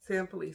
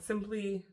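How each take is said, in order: First: The first vowel sounds like 'sam'. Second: The first vowel sounds like 'sim'. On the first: The speaker calls it right. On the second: The speaker calls it wrong.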